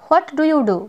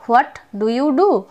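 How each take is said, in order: First: Said in the usual way. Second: What do you do said very slowly, word by word; slow teaching demo; slow, spelled-out model phrase. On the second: Shown as a demonstration. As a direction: drag each word out for learners to copy.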